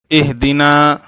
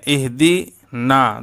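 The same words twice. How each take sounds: First: Said in the usual way. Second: اہدی and نا said slowly as two separate words with a break between; split into two parts. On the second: Shown as a demonstration. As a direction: pull اہدی apart from نا, slowly. (اہدی اور نا کو الگ الگ، آہستہ بولیں) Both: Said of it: "دونوں الگ الگ ہے".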